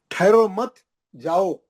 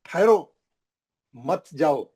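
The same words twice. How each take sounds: First: ठहरो मत run together high and loud, then जाओ apart; pause after मत. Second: ठहरो alone and firm, long break, then मत जाओ; pause after ठहरो. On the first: Teacher showing how meaning reverses, pause after मत. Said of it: "उल्टा हो गया ना". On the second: Teacher explaining where to stop, pause after ठहरो. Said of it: "इसका मतलब है stop". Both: Shown as a demonstration.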